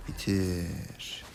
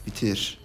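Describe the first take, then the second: First: Drawn-out urging. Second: Said in the usual way. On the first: Real, not acted. Same urging repeated, drawn out.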